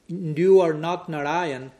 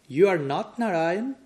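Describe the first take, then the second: First: It is said as a flat falling statement. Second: It is said as a rising question. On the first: It denies being Narayan. "the negation" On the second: It affirms being Narayan. "with the modulation of the tone of voice"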